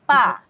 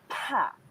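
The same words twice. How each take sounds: First: The p is said with no puff of air. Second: The p is said with a puff of air. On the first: "Without hangin, letter B" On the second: "P is letter P with hangin"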